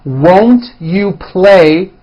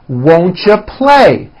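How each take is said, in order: First: Each word is said fully and separately. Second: The words are reduced and run together.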